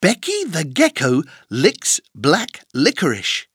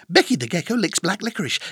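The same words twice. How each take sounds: First: The sentence is said at a slow pace. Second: The sentence is said at a very fast pace.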